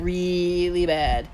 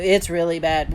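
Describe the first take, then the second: First: REALLY stretched out slowly; drawn-out emphasis. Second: Said in the usual way. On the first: A narrator's reading. Son warns mom, "really" drawn out for emphasis. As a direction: stretch "really" long before "bad".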